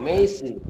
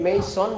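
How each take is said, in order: First: The first vowel glides from e to i. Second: The first vowel is a plain short e. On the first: The speaker calls it right. "মেইস, এরপর দন্ত ন, মেইসন" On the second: The speaker calls it wrong. "এটা আমরা মেসন বলবো না"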